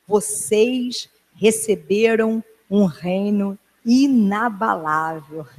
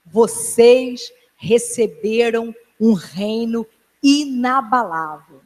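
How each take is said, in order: First: Each word stretched out slowly; slow proclamation. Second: Drawn out slowly, in a changed voice; slow solemn repeat. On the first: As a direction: proclaim it slowly, letting it sink in. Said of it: "Essa é a palavra profética". (proclamação lenta e solene) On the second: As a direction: press it into their memory, word by word. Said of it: "pra vocês nunca esquecerem". (repetição lenta e solene) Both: Shown as a demonstration.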